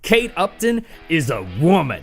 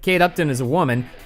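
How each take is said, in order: First: It is said with heavy, drawn-out emphasis. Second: It is said flatly, without special emphasis. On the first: She is an extremely attractive woman. The speaker calls it right. "You say it like" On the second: A plain statement of fact. The speaker calls it wrong. "you don't say it like"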